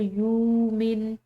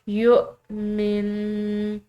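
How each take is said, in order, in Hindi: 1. स्वर बिना किसी ग्लोटल कैच के सहजता से चलता है। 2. एक तेज़ ग्लोटल कैच शब्द को तोड़ देता है। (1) "इसको यूमिन नहीं पढ़ेंगे" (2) "हमज़ा को झटके से अदा किया जाता है"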